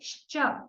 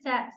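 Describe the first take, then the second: First: It begins with a hushing 'sh' sound. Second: It begins with a hissing 's' sound. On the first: The speaker calls it right. "She would want to say sha" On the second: The speaker calls it wrong. "We have the sa kind of sound for sha"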